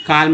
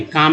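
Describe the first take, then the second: First: काल्म with the L sounded; wrong pronunciation. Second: काम with no L, long aa; silent L. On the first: Teacher warning learners about a misreading, काल्म with audible L. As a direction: pronounce the silent L in काल्म. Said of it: "काल्म नहीं, काम". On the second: Teacher giving the correct reading, काम without any L sound. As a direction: leave out the L, saying काम. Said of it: "एल जो है silent है". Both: Shown as a demonstration.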